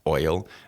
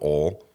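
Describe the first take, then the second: First: The word has a standard, neutral pronunciation. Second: The word has a regional hometown pronunciation. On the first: "I'm saying oil ... because I worked on that" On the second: "Where I'm from, it's just oil"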